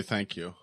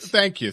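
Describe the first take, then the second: First: Said in the usual way. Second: Northern Cities accent thank you, high; great lakes accent. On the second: Shown as a demonstration. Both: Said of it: "I can do a little Northern Cities accent".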